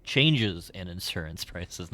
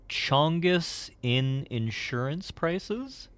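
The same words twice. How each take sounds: First: Said in the usual way. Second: "Chongus" drawn out slowly, high and loud, with a rising question; misreading "Chongus" as a puzzled slow question; misread word. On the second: Real, not acted. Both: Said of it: "not Chongus".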